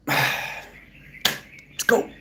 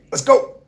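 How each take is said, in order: First: Breathy sigh, then a whispered let's go. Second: Loud, high shout of let's go; hyped shout. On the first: Streamer deflating after his cheer, sighed whisper. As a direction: let the air out and breathe it. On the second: Streamer pumping himself up, loud high shout. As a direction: kick it off with a big cheer. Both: Real, not acted.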